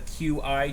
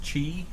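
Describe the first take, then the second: First: The two letters are named separately. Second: It is said as a single syllable. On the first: The speaker calls it wrong. "not the Q I charger" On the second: The speaker calls it right. "which is actually pronounced Qi"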